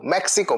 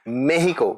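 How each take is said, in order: First: The middle consonant is a ks sound. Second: The middle consonant is an h sound.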